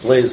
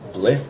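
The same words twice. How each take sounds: First: The name is said with an American pronunciation. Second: The name is said with a French pronunciation. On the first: "In America" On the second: "I think the French pronounce it"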